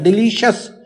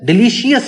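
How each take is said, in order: First: The ending is blended into one single syllable. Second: The ending is split into two separate syllables. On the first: The speaker calls it right. "मिला देना है" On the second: The speaker calls it wrong. "डिलीशियस लफ्ज नहीं होता"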